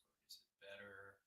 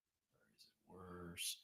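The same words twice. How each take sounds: First: Very soft, dropping to a whisper; quiet test voice. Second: Slow breathy whisper; whispered test. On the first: Streamer asking viewers while speaking very softly, whispering. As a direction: let the voice fade to test the mic. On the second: Streamer testing the mic by whispering slowly. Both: Shown as a demonstration. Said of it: "when I talk quietly".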